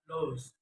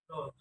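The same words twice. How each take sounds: First: Said in the usual way. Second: "those" with d for th; learner's mispronunciation. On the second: Shown as a demonstration. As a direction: say "those" as "dose". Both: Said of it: "is pronounced".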